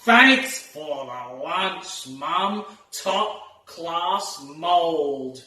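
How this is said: It is said in a sarcastic, mocking tone. The lunch was actually terrible. The speaker calls it right. "He's being sarcastic"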